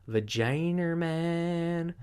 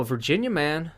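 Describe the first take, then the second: First: "Vaginer man" drawn out very slowly, ending in -er; joke mispronunciation. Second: Said in the usual way. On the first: Acted. Host twisting a headline's Virginia man, joke mispronunciation. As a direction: stretch "Vaginer" into a slow, higher mangling of Virginia.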